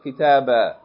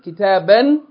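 First: The word ends with a long vowel, no n. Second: The word ends with a short vowel plus n. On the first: Reading stops on the word. "pronounce it kitaba, like it's kitab, fatha, aleph" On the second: Reading continues past the word. "instead of pronouncing tanween an"

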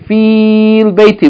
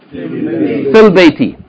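First: The long i is kept before al. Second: The i is short and runs into l. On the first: The speaker calls it wrong. "we're not going to pronounce it fi al-bayti" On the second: The speaker calls it right. "We're going to pronounce it how? Fil-bayti"

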